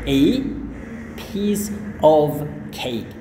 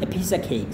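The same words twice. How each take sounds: First: Each word is said slowly and separately. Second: The words run together quickly in one go. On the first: The speaker calls it wrong. "kalau kita lafalkan semuanya ini secara pelan-pelan" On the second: The speaker calls it right. "Enaknya langsung"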